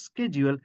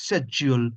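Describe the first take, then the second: First: "schedule" as SKED-jool; hard k at the start of "schedule"; US pronunciation. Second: "schedule" as SHED-yool, no k; UK pronunciation. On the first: Teacher contrasts US with UK, American pronunciation. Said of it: "US schedule". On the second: Teacher contrasts UK with US, British pronunciation. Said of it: "UK". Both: Shown as a demonstration.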